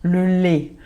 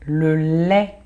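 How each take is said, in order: First: "le lait" with a closed southern é, lait as "lé"; Marseille accent. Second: "Le lait" with an open Parisian è in lait. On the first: Teacher from Marseille showing her own closed é. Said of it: "eu que sou de Marseille". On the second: Teacher showing students the Paris E, open è. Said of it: "o E é mais pronunciado em Paris". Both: Shown as a demonstration.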